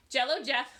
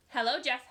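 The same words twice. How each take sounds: First: Jello, Jeff with a J sound instead of the H in hello; slip of the tongue. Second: Said in the usual way. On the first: A narrator's reading. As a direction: trip into Jello, Jeff by mistake. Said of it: "She laughed at her mistake". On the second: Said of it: "laughed at her mistake".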